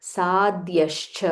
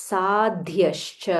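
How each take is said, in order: The two takes are said the same way.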